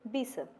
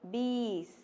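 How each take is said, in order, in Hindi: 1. स्वर को छोटा और झटके से बोला जाता है। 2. स्वर को लंबा खींचा जाता है। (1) "अगर यहाँ पर छोटा ई होता तो" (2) "इसलिए यहाँ पर बड़ा ई है"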